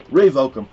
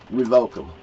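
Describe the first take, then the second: First: "Revoke 'em" barked out loud and firm; louder repeat. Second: Said in the usual way. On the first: Real, not acted. Ranting about gun permits, he shouts the demand again. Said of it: "revoke 'em". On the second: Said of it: "Revoke 'em".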